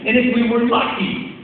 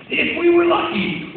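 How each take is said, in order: First: Said in the usual way. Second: Lucky drawn out higher and slower; a storyteller's hopeful emphasis; stressed repeat. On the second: Real, not acted. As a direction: lean into if we were lucky, much higher and slow.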